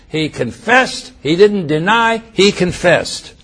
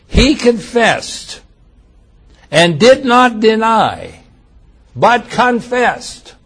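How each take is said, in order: First: Confessed slowed and leaned on, deny lifted; emphasis repeated. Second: Slow, weighted stress on each confessed; emphatic scripture reading. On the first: Preacher repeating the testimony to the congregation, emphatic. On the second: Preacher stressing John's testimony, slow and solemn. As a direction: draw out every word and lean on confessed. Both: Shown as a demonstration. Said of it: "listen to the emphasis on his testimony".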